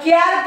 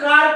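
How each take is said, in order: First: The vowel is short and front, as in cat. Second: The vowel is long and open, as in father. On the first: The speaker calls it wrong. "याला कॅर का म्हणत नाही" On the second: The speaker calls it right. "कार का म्हणतात"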